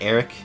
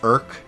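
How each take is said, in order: First: The name is said like Eric. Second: The name is said like irk. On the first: The speaker calls it wrong. "not Eric" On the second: The speaker calls it right. "his name is pronounced Irk"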